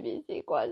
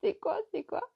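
First: Low inner bafflement. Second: C'est quoi squeaked far higher; c'est quoi c'est quoi in a high squeaky voice; high bafflement. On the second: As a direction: squeal it up in disbelief. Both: Retold or imitated. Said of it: "Je me dis".

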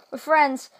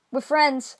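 Both takes have the same delivery.

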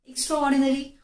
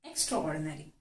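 First: Extraordinary said again, higher and louder; emphatic repeat. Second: Said in the usual way. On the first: Shown as a demonstration. Teacher repeating the new word Extraordinary to learners, emphatic. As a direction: repeat Extraordinary with a strong, bright punch. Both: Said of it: "you can say".

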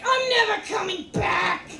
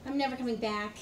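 First: Higher, louder mock protest; rising mock outrage. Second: Said in the usual way. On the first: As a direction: push it up into a pitched yell. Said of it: "But it was more like". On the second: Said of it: "I said".

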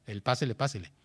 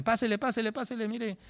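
First: Said in the usual way. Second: High, eager market hawker call; shopkeeper calling customers. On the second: Retold or imitated. Teacher mimics an English shopkeeper, high hawker call. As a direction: lure shoppers in like a shopkeeper.

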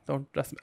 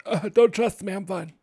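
First: Said in the usual way. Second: Higher, louder, mock-ominous don't trust me; a hammed-up warning, higher and louder. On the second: Shown as a demonstration. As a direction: warn them off with a playful push on don't.

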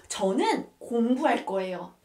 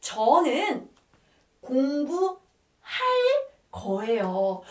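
First: Said in the usual way. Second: Teacher spelling out "저는 공부할 거예요" in stretched pieces; word-by-word demonstration. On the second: Shown as a demonstration. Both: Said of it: "how can you say that".

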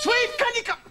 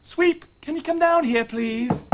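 First: High-pitched summons, cut short; raised voice. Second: Restrained, courteous summons; corrected, polite call. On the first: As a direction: call out too sharply, forgetting yourself. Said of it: "wrong to raise my voice". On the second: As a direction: rein the voice in and ask nicely. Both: Acted.

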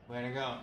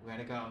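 No difference in how they are said.

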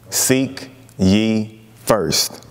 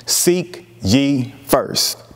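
First: Stretched very slowly and lower; even slower, low. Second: Each word drawn out slowly; slow emphatic. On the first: Preacher repeating the verse to the congregation, drawn out low. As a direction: let it sink in, slowly and low. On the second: Preacher repeating his key verse, slow and weighty. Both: Shown as a demonstration.

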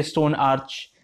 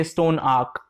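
First: Stone arch ending in a ch sound. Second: Stone arc with a hard k. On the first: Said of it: "I don't say stone arch". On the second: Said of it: "if it's a single stone". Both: Shown as a demonstration.

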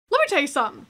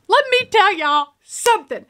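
First: Said in the usual way. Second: "Let me tell y'all something" punched out higher, word by word; emphatic. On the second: Real, not acted. Viewer starting a rant to the audience, emphatic "Let me tell y'all something".

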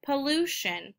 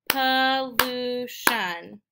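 First: Said in the usual way. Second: "pollution" in three slow, stretched beats; syllable by syllable. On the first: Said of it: "finding out how many syllables". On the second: Shown as a demonstration. Teacher counting three syllables, "pollution" slowly split up. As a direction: split "pollution" as puh, lu, shun. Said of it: "Also three syllables".

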